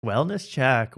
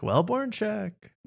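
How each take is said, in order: First: Said in the usual way. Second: "wellborn check" high and slow; drawn-out pun. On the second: Shown as a demonstration. Wordplay on wellness check.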